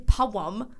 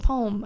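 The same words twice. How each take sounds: First: The word is said as two syllables. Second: The word is said as one syllable. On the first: "I don't say poem" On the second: "I say poem"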